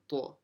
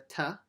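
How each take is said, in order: First: A heavy, emphatic t sound with a full mouth. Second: A light, plain t sound with a thin mouth. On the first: The speaker calls it right. "It's a ta. Full mouth" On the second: The speaker calls it wrong. "Don't say as a ta"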